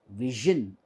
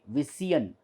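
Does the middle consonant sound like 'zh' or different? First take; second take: zh; different. First: The middle consonant is a voiced 'zh' sound. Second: The middle consonant is not a 'zh' sound. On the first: The speaker calls it right. "we say vision" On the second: The speaker calls it wrong. "We don't say vision"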